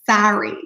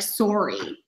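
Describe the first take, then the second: First: It is said with a more closed American O. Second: It is said with a strong, open Canadian O. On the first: "Americans will say sorry" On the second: "we're more stronger with the O would be like sorry"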